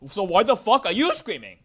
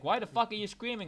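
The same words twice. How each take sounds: First: Much louder, higher yelled comeback; angry shout at screaming relatives; shouted retort. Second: Retorting to family. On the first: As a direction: yell it back at them full force. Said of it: "It's like". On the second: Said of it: "it's like". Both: Retold or imitated.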